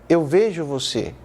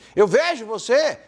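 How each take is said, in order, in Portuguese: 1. É dito em um tom calmo e neutro. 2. É dito em um tom carregado e emocional. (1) "É uma maneira neutra de dizer" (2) "Não"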